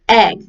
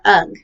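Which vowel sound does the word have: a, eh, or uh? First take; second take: eh; uh. First: The vowel is the 'eh' sound. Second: The vowel is the 'uh' sound. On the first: The speaker calls it right. "they say egg" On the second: The speaker calls it wrong. "or ugh"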